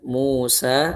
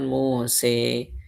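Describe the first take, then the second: First: The final vowel is an open 'a' sound. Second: The final vowel leans toward an 'e' sound. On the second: "ada orang yang mengucapkan Muse"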